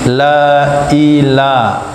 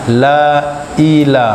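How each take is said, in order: First: A clear glottal catch separates la and ila. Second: The same.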